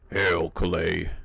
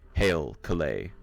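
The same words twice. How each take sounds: First: It is said in a put-on dwarf king voice. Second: It is said in a plain, normal voice.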